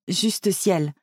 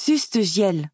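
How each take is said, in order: First: "juste ciel" with j and s in place; corrected pronunciation. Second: "Juste ciel" with its first sounds muddled; tongue-tied slip. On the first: Prof correcting his slip, "juste ciel" pronounced correctly. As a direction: say "juste ciel" properly, j first, then s. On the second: Flustered Prof exclaiming at the house, "Juste ciel" garbled by swapped sounds. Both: A narrator's reading. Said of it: "Euh, non, juste ciel".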